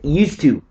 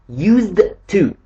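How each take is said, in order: First: The d sound blends smoothly into the t. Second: The d sound is clearly and separately pronounced. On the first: The speaker calls it right. "It's pronounced used to" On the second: The speaker calls it wrong. "it's not pronounced like that"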